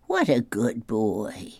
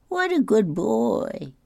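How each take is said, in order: First: Drawn-out pat-on-the-head voice; praising a child. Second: High, slow doting praise; exaggerated high pat-on-the-head voice; gushing over a child. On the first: Acted. Grandpa imitates people praising him. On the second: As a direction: coo it drawn-out in a high voice. Repeats the praise higher.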